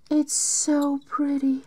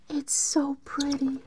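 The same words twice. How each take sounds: First: Said in the usual way. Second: Awed whisper. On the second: Real, not acted.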